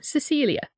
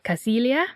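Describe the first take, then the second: First: The name is said the English way. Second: The name is said as it is spelled. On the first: "which might just be the English translation" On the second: "which is how it's spelled"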